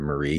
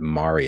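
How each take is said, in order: First: It is said with a non-Australian pronunciation. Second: It is said with an Australian pronunciation. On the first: "instead of Marie Celeste" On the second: "in Australian he pronounces it Marie"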